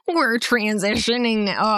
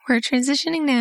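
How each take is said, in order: First: It is said in an unusual put-on voice. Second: It is said in an ordinary speaking voice.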